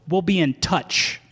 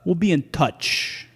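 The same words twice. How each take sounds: First: It is said in a plain, friendly way. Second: It is said in a menacing way.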